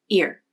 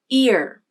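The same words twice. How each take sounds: First: Pitch stays flat; vowel short and quick. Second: Pitch glides up and down; vowel long and loud. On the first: The syllable is unstressed. "the pitch of the voice is flatter, and the vowel is said faster" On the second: The syllable is stressed. "the pitch of the voice glides up and then down, and the vowel is said longer and louder"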